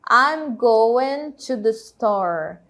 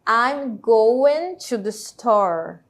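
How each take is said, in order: No difference in how they are said.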